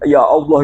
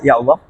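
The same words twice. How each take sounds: First: It is said fervently, with deep devotion. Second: It is said casually, without much feeling.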